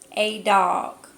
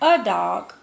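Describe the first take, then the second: First: The article is said as a long 'ay' sound. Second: The article is said as a short 'uh' sound. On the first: "I've always said A"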